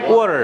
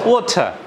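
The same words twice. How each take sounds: First: It is said in an American accent. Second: It is said in a British accent. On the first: "আর American accent কি?" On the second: "আর ব্রিটিশরা কি বলে?"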